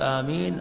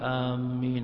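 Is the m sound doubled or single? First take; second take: single; doubled. First: The m sound is short and single. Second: The m sound is held doubled. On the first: It means answer the prayer. The speaker calls it right. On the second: It means heading toward something. The speaker calls it wrong.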